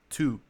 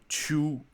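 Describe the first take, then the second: First: It starts with a plain t sound. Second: It starts with a ch sound. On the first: The speaker calls it right. "pra falar to" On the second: The speaker calls it wrong. "Do to pra falar to"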